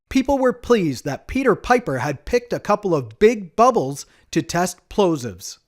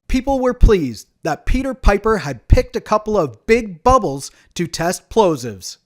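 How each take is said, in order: First: The P sounds are soft, without air bursts. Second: The P sounds pop with bursts of air. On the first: "So that was with the pop filter on" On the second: "Let's try it without it"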